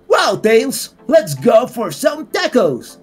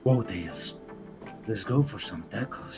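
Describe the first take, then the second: First: It sounds light and cheerful. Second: It sounds heavy and very serious.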